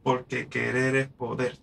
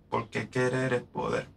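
First: Slow, measured reading of querer es poder; scanned verse. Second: Querer es poder said with clear stress on poder; scanned verse. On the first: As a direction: lean on the final poder. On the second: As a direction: read it to show the ending rings. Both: Shown as a demonstration. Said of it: "¿Ves que suena?".

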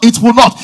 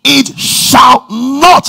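First: Said in the usual way. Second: Very slow "it shall not", NOT drawn out; emphatic shall not. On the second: Shown as a demonstration. Preacher correcting himself for emphasis, slow stressed "it shall not". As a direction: drag out "it shall not" word by word. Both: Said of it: "for the emphasis".

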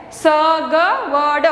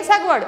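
First: "सगवड़" slowly, four separate letter sounds; slow reading. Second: "सगवड़" short and joined up; all together. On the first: Teacher introduces the next word, "सगवड़" slowly sounded out. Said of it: "आप slowly पढ़ सकते हो". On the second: Teacher answers how to read it, "सगवड़" all together. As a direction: say "सगवड़" as one word. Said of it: "पूरा एक साथ में पढ़ना है". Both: Shown as a demonstration.

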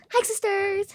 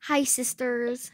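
First: "Hi, sisters." said higher and louder; testing voice with ears blocked, higher; higher test greeting. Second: Said in the usual way. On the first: Real, not acted. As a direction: call it out brightly higher. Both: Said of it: "so this is how you hear me".

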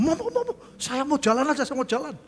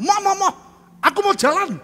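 First: High, laughing whine; laughing mock protest. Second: Loud, high pleading; insistent protest. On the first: Preacher replaying his own protest for the congregation, laughing. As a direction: replay the plea while laughing at yourself. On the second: Retold or imitated. Patient protesting to the hospital staff about the stretcher, loud and high. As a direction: beg loudly like a stubborn patient.

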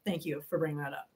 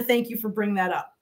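First: Low, soft repeated thanks; muted aside. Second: Said in the usual way. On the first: Real, not acted. Streamer thanking Wanda for the reminder, muted aside. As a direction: drop right down, almost to yourself.

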